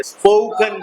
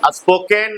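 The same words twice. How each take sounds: First: स्पोकन as spoh-kun, with a weak last vowel; correct pronunciation demo. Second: स्पोकन misread as spo-ken, with a full e in the last syllable; wrong pronunciation demo. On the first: Teacher correcting pupils' reading, स्पोकन pronounced spoh-kun. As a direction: say स्पोकन with a reduced "kun" ending. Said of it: "स्पोकन कहते हैं". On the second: Teacher showing pupils what not to read, स्पोकन mispronounced as spo-ken. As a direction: say स्पोकन by its spelling, ending in "ken". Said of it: "स्पोकन नहीं पढ़ते". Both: Shown as a demonstration.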